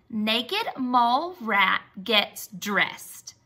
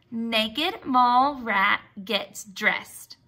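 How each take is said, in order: Both takes have the same delivery.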